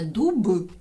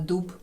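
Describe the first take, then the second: First: The final consonant is voiced. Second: The final consonant is voiceless. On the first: "ми кажемо не дуб" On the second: "оглушати дзвінки приголосні в кінці слів"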